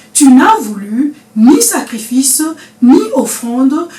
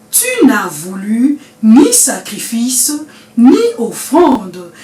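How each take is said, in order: No difference in how they are said.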